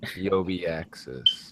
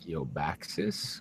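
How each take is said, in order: First: The name is said with more syllables. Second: The name is said with fewer syllables. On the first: The speaker calls it right. "There you go. You got it right" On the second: The speaker calls it wrong. "what's an easier way to say that without fewer syllables?"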